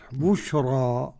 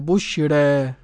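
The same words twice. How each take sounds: First: The final vowel is a fully open a. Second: The final vowel sits between a and e. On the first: "والباقون بالفتح" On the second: "بتقليل الألف المنقلب عن ياء بعد راء ... لازم ترقق مع الايه التقليل"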